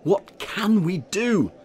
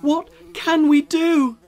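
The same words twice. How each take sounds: First: High, loud, slow worried question; a fussy mayor pleading with his village; slow, higher and louder anxious mayor; mayor asking. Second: High, loud desperate cry; a crowd wailing for help; loud, much higher crying out of desperate villagers. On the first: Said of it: "Mayor Muddlenut asked them all". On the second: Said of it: "the villagers cried". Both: A narrator's reading.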